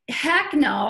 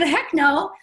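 First: Said in the usual way. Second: "Heck no" punched louder, rising; emphatic refusal. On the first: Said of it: "And I'm like". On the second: Retold or imitated. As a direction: firmer retold "Heck no". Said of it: "but I said".

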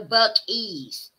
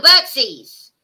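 First: Bucky's stretched very slowly, BUCK-y's with no s sound; corrected pronunciation. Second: Bucksies said slowly, with a clear ks in the middle; drawn-out Bucksies, as if testing the wrong name; wrong pronunciation. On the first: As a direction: correct them by drawing out Bucky's. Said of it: "Pronounced Bucky's". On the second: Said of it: "It's called Bucksies?". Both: Shown as a demonstration.

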